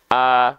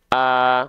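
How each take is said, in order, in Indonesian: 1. Vokal "eh" diucapkan dengan bibir netral. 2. Vokal "eh" diucapkan dengan bibir netral.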